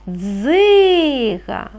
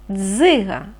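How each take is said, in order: First: Дзига with the И held very long; drawn-out vowel. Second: Said in the usual way. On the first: Shown as a demonstration. Teacher helping children find the next sound, И in Дзига stretched. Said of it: "Який наступний звук?". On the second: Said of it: "Який перший звук ви чуєте?".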